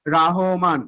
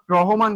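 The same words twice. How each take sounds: First: "রহমান" with an open long a, Raa-homan; corrected pronunciation. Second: "রহমান" with a rounded first vowel, Ro-homan; wrong pronunciation. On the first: Teacher correcting the poet's name, first vowel of "রহমান" as open aa. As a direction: draw out "রহমান" as Raahoman. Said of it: "কিন্তু এখানে হইলো রহমান". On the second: Teacher warning students off the wrong name, first vowel of "রহমান" as o. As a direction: say "রহমান" as Rohoman, the mistaken way. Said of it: "not রহমান". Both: Shown as a demonstration.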